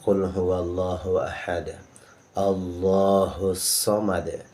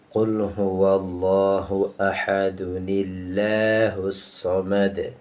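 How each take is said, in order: First: It stops after ahad; Allah has a thick L. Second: It joins ahad with 'nil'; Allah has a thin L. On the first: "Awalnya normalnya ... lam tebal" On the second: "apabila kita memakai nun wiqayah ... lam tipis"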